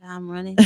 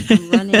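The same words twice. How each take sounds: First: Said under the breath, much softer; a quiet vow to herself; soft start. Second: Louder, rising on I'm; emphatic repeat. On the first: Repeats her vow, first take soft. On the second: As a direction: declare it with new force. Repeats her vow, second take loud. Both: Real, not acted.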